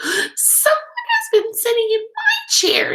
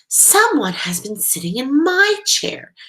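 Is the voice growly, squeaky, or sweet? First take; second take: squeaky; sweet. First: It is a high, squeaky voice. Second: It is a sweet, low voice.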